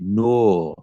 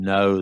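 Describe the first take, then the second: First: It is said in an imitated Geordie accent. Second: It is said in a standard English accent. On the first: "they say like, no. ... I'm not doing it justice" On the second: "instead of saying no"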